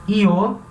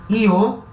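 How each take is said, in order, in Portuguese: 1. A palavra começa com um som parecido com ee. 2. A palavra começa com um som parecido com ee.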